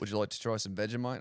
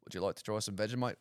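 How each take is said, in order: First: Quick, badly faked Australian accent; a weak go at an Australian accent. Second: Bad Australian accent. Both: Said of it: "Worst Australian accent ever".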